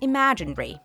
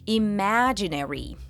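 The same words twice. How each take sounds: First: The word ending is said quickly and compressed. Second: The word ending is said with separated syllables. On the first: "in British English, the second half of the word is often pronounced more quickly" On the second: "In American English, it's usually more separated"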